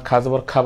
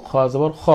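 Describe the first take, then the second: First: খা জবর খা with a plain k-h and open 'aa' vowel; wrong open kha. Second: খ জবর খ with throaty kh and rounded 'o' vowel; full-mouthed kho. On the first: Teacher shows what not to say, খা with open 'aa'. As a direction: say খা with a bright Bengali 'aa', not a rounded 'o'. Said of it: "খা বলবো না, খা জবর খা বলবো না". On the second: Teacher models what we should say, খ as throaty 'kho'. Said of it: "আমরা বলবো খ জবর খ". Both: Shown as a demonstration.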